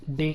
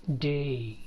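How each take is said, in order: First: డే with a pure e; single vowel. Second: డే as "deh-ee"; stretched two-sound vowel in డే; diphthong glide. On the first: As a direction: say డే as "deh", no glide. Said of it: "కాదు". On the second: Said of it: "ఈ ఏ అనే sound". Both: Shown as a demonstration.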